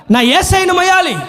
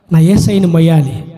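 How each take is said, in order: First: High cry of devotion; impassioned Mary. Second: Low, earnest repeat of devotion; solemn Mary. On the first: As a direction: proclaim the longing aloud, in character. Acts Mary's cry, first take. (ఆర్తితో ఎలుగెత్తి) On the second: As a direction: say it deep and heartfelt, in character. Repeats Mary's words low. (తగ్గు స్వరంలో ఆర్తిగా) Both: Acted.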